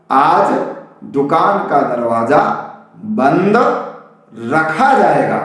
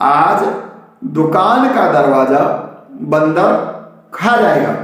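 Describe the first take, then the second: First: Slow reading, pause after बंद, then रखा as one word; बंद held and set apart from रखा; correct word break. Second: Slow reading with बंदर joined as one word; बंदर as one word, wrongly joined; misread as बंदर. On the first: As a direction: split it clearly: बंद, a long pause, रखा जाएगा. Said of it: "वास्तव में बंद अलग था". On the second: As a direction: read the sign slowly, बंदर unbroken before खा जाएगा. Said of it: "फिर से सुनिएगा". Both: Shown as a demonstration.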